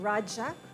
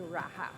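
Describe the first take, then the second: First: It is said with the original Indian pronunciation. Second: It is said with the Spanish pronunciation. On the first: This is the original form of the word. "The original word is spelled differently and pronounced Raja because it is Indian Sanskrit in origin" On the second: This is the form adapted by Spanish speakers. "the Spanish way"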